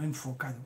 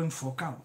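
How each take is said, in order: First: Said in the usual way. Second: ENFOCADO said as "enfocao", without the d; dropped final D. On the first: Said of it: "no enfocado". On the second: Shown as a demonstration. Host points out his casual wording, "enfocado" clipped to "enfocao". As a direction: drop the d in "enfocado": "en-fo-cao". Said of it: "sin el do de pecho".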